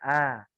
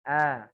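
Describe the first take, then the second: The two takes are said the same way.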